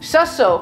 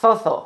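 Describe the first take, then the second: First: The consonants are pronounced as s sounds. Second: The consonants are pronounced as th sounds. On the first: "They just don't feel like saying so-so" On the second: "They like to say zozo"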